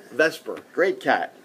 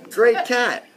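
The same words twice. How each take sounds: First: Said in the usual way. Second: Emphatic praise. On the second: Real, not acted. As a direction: burst out high and loud on Great. Fond praise of his late cat.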